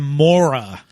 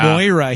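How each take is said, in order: First: The first syllable has an 'or' sound. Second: The first syllable has an 'oy' sound. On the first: This is how one actor keeps saying the name. The speaker calls it wrong. "He says Mora" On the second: This is the name as the character is meant to be called. The speaker calls it right. "He never says Moira"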